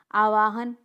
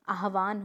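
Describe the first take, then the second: First: आवाहन with the v before the h, aa-vaa-han; wrong pronunciation. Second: आह्वान with the h before the v, aah-vaan; correct pronunciation. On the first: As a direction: demonstrate the mistake आवाहन, v sound first. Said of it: "नहीं". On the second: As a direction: model आह्वान, h first, then vaan. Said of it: "होता है". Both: Shown as a demonstration.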